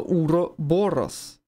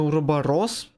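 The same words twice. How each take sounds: First: The stress falls on the syllable 'bo'. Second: The stress falls on a syllable other than 'bo'. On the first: The speaker calls it right. "но правильно Уроборос. Бо. Ударение" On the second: The speaker calls it wrong. "Я читаю обычно Уроборос"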